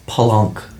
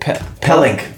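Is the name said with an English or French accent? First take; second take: French; English. First: The name is said with a French accent. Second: The name is said with a plain English accent.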